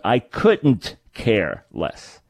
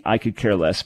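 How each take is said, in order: First: Very slow, "couldn't" drawn out and stressed. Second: Said in the usual way. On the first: Shown as a demonstration. Host correcting the phrase with a smile, stressed "couldn't". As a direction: set each word apart, leaning on "couldn't". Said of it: "grammatically it shouldn't be "I could care less". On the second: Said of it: "grammatically it shouldn't be".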